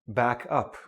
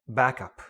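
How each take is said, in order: First: The stress falls on the second part. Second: The stress falls on the first part. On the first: It is used as a verb. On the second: It is used as a noun.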